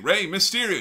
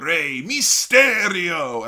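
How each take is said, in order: First: The name is said with an English accent. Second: The name is said with a Spanish accent. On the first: "instead of saying" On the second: "In the way it's meant to be said"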